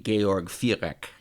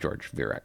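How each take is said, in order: First: The name is said with German pronunciation. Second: The name is said with American English pronunciation. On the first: "if it was pronounced in German" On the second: "if he's an American, he'd probably just say"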